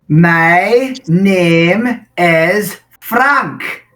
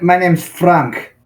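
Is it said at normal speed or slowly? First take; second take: slowly; normal. First: It is said more slowly. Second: It is said at normal speed.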